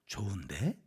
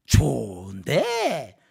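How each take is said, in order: First: Said in the usual way. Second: Long drawn-out mocking question; sarcastic sneer. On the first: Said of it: "억양에 따라서 이게 비아냥거림이 되고". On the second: Shown as a demonstration. Preacher shows intonation turning praise into sneering, sarcastic. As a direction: stretch it out and swoop up mockingly. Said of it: "비아냥거림이 되고 비꼬는 말이 되니까".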